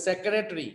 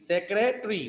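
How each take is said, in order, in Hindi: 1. शब्द से एक अक्षर छूट जाता है। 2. शब्द से एक अक्षर छूट जाता है।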